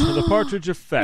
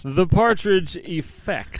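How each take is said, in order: First: Much higher, gleeful call of the title; "The Partridge Effect" sung out high and thrilled; excited repeat. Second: Slow, drawn-out title reveal; "The Partridge Effect" slowly, like unveiling a show; grand announcement. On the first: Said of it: "I'm so excited". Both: Acted.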